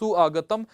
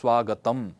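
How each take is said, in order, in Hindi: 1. उ और अ अलग-अलग स्वर के रूप में बोले जाते हैं। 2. उ और अ मिलकर 'व' की ध्वनि बन जाते हैं। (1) "सु आगतम बार बार बोलतो" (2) "उ और अ मिलाकर के व सुनाई पड़ने लग जाएगा"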